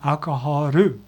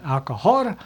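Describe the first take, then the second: First: It ends in an R-like sound plus a U vowel. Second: It ends in a plain L with no vowel. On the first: The listener understood it at once. The speaker calls it right. "I need to add that U sound" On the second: The listener could not understand it. The speaker calls it wrong. "I wasn't adding the U sound to alcohol"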